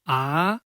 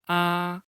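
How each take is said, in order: First: The pitch rises from middle to high. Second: The pitch stays high and level throughout. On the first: "rising tone. pronunciation is raised" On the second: "Flat tone, its pronunciation is flat. The voice is in the highest position"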